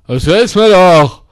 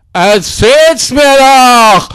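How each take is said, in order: First: Said in the usual way. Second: Stretched, shouted taunt; slow mocking shout. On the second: Taunting the resident, slow mock shout. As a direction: yell it out slowly, leaning on "mir".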